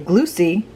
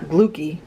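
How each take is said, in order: First: The consonant after glu sounds soft, like ch. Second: The consonant after glu sounds hard, like k. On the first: It follows the Italian double-C sound. "I say glucy, because of the Italian in me" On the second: It is how others usually say it. "not glucky"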